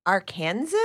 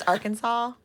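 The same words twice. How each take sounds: First: "Arkansas" said as ar-KAN-zəs, questioning; singer's wrong pronunciation. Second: "Arkansas" said as AR-kən-saw; correct pronunciation. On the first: Retold or imitated. Reviewer quotes the singer's mistake, "Arkansas" rhyming with Kansas. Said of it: "pronouncing it wrong". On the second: Shown as a demonstration. Reviewer corrects the singer, "Arkansas" pronounced AR-kən-saw. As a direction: end "Arkansas" on saw, silent final s. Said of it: "It's, it's Arkansas".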